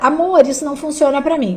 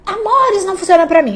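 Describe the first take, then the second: First: It is said in a calm, normal voice. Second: It is said in a loud, shouting voice. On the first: The speaker calls it right. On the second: The speaker calls it wrong.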